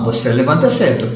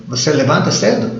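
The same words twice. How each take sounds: First: Said in the usual way. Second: "você levanta cedo?" with the pitch rising on "cedo"; question intonation. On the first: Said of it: "É uma afirmação". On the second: Shown as a demonstration. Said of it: "É uma pergunta".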